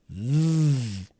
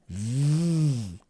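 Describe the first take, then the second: First: The th sound is voiced, with voice. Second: The th sound is voiced, with voice.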